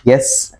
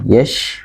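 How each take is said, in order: First: It ends with a plain s sound. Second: It ends with a full sh sound. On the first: The speaker calls it wrong. "dibaca seperti huruf sin" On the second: The speaker calls it right. "memiliki sifat tebal ketika pengucapannya"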